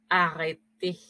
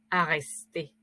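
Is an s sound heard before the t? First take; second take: no; yes. First: It is said without an s before the t. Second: It is said with an s before the t. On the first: The modern form of the word. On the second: The older form of the word.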